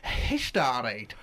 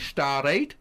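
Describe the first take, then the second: First: The word starts with an audible h sound. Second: The word starts directly with a vowel. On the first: "you can put on the silent H at the start of it" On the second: "the longer version"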